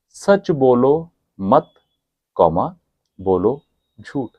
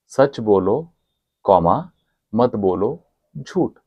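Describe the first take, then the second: First: The break comes after the word 'mat'. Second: The break comes after the first 'bolo'. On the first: Do not tell the truth, tell lies. "उसने comma बस इधर की जगह थोड़ा इधर लगा दिया" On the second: Tell the truth, do not lie. "सच बोलो कॉमा"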